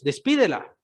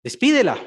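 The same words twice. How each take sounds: First: Said in the usual way. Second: Loud, higher urgent demand; the fed-up disciples urging him: send her away; exasperated plea. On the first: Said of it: "vean, versículo veintitrés". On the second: Acted. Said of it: "pues da voces tras nosotros".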